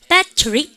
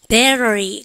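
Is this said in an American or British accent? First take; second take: British; American. First: It is said with a British accent. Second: It is said with an American accent.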